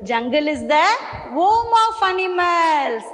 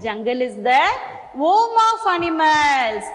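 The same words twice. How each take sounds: First: Slow model sentence. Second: Slow repeat. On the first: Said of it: "teacher models sentence to repeat". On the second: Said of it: "teacher repeats model sentence". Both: Shown as a demonstration.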